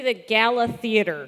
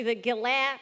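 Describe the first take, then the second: First: "Gala" in Canadian, first syllable stressed, louder; Canadian accent. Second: "Gala" in a tentative Canadian accent, stressed on the end; attempted Canadian accent. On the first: Correcting a panelist, firmly Canadian "Gala" with front stress. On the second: Correcting a panelist's pronunciation, fumbling "Gala" in Canadian. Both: Shown as a demonstration. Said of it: "say that in a Canadian accent".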